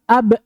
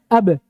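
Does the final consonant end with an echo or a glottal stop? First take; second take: glottal stop; echo. First: The final consonant is cut off by a glottal stop. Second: The final consonant is released with an echoing bounce. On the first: The speaker calls it wrong. "khatmu sautil qalqalati bihamzatin, menutup qalqalah dengan hamzah" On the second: The speaker calls it right. "yang benarnya apa?"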